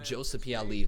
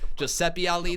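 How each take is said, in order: First: The name is said the English way, like Joseph. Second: The name is said the Italian way, like Giuseppe. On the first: This is the habitual, anglicized way of saying it. The speaker calls it wrong. "I've pronounced it Joseph Pieli this entire time" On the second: This is likely the name's actual pronunciation. The speaker calls it right. "that's probably the way it's actually pronounced"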